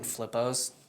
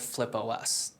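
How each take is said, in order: First: The ending is said as one syllable, pos. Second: The ending is said as the letters O, S. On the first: The speaker calls it wrong. "people weren't saying it right. They were saying Flippos" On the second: The speaker calls it right. "we used to be called Flip O S"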